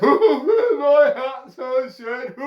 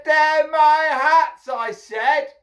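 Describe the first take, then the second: First: High, squealing monkey voice; mimicking monkeys. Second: High, loud, drawn-out shout; angry insistence. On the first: Monkeys shaking fists back at the hatter, mocking mimicry. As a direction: parrot it in a loud monkey wail. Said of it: "they're copying me". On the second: Hatter shaking his fist at monkeys, angry shout. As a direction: insist furiously up at the trees. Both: A narrator's reading.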